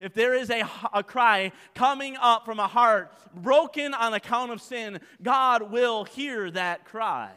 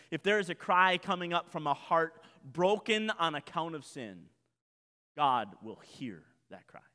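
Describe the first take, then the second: First: Higher and louder, slowing at the end; preached with force. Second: Said in the usual way. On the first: Shown as a demonstration. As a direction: preach the quote to the hall. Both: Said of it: "You can see it on your screen".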